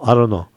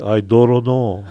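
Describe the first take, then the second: First: It is said in a plain standard accent. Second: It is said in Kohala pidgin style.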